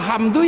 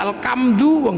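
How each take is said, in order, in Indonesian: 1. Kata itu diucapkan dengan bunyi h Arab standar. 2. Kata itu diucapkan dengan bunyi seperti k khas Jawa.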